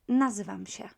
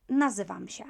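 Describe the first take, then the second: Both takes have the same delivery.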